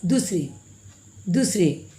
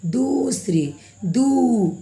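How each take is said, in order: First: दूसरे said quickly with a short u; short vowel. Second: दूसरे with the oo stretched and raised; slow, sustained oo in दूसरे; drawn-out long vowel. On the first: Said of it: "ऐसे तो हम लोग नहीं बोलते हैं". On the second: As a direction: drag out दू in दूसरे. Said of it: "हम लोग इसको खींच कर बोलते हैं". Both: Shown as a demonstration.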